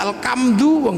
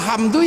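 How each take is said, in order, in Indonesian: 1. Konsonan tengahnya diganti dengan bunyi k. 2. Konsonan tengahnya adalah bunyi h berhembus khas Arab.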